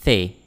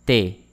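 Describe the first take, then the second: First: The said as "thay", with th as in think; English th, mistaken version. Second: T said as French té, hard t without th; plain French t. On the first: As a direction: say the with tongue-tip th and é. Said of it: "And not". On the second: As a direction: say T as "tay" without glide. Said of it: "We pronounce as a". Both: Shown as a demonstration.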